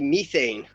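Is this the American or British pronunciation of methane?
British. It is said with a British pronunciation. This is how the others say it. "y'all say methane"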